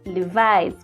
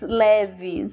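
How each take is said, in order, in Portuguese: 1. É dito com pronúncia inglesa. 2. É lido com pronúncia portuguesa. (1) "na língua inglesa é Levi's" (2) "eu pronunciei assim errado"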